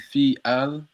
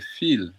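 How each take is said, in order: First: It is said as two separate words. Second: It is merged into one short word. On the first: "Instead of saying fi al" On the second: "I could just make it into one sounding word"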